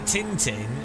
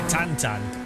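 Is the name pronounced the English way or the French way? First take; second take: English; French. First: The name is said with English vowels. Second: The name is said with French nasal vowels. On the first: "we call it Tintin" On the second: "the French call it Tantan"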